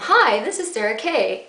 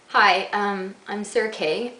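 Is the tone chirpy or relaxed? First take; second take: chirpy; relaxed. First: It sounds overly bright and chirpy. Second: It sounds relaxed and natural.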